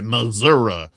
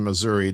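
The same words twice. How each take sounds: First: It is said in an old Southern way. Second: It is said the standard way.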